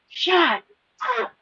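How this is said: It is said loudly, in an angry voice. "he screamed it"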